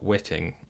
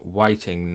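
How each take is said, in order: First: The first vowel sounds like in 'bit'. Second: The first vowel sounds like in 'bite'. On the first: The speaker calls it wrong. "not witting" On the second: The speaker calls it right. "definitely pronounced whiting"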